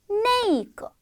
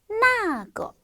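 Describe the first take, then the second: First: The first syllable has an 'ei' diphthong. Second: The first syllable has a simple 'a' vowel. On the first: This is the casual conversational form. "발음을 조금 더 부드럽게 하기 위해서 네이거 이렇게 읽는" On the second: This is the standard form. "원래 이제 우리 발음은 나거"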